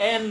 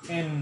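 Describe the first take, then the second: First: এন with an open "ae" vowel, short n; wrong pronunciation. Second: এন as "en" with a long nasal n; correct pronunciation. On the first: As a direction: say এন as a quick "aen". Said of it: "এনটা একটি ভুল উচ্চারণ". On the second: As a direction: let the n of এন ring through the nose. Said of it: "বিশুদ্ধ উচ্চারণ হবে". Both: Shown as a demonstration.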